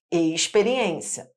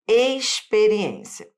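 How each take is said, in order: First: Experiência with the X hushed like sh, "eishperiência"; carioca X sound. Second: Experiência with a crisp S for the X, slow and stressed. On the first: Carioca teacher showing students her own sh-like X in Experiência. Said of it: "eu vou pronunciar o X com som de X". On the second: Teacher demonstrating to students the X sounding as S in experiência. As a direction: say experiência as "esperiência", hissed S not sh. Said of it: "pode ter som de S". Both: Shown as a demonstration.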